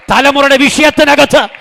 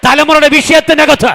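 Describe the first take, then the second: No difference in how they are said.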